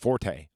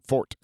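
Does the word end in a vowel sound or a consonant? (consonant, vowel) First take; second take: vowel; consonant. First: The word ends with an added vowel sound. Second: The word ends on the t consonant. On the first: The speaker calls it wrong. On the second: The speaker calls it right.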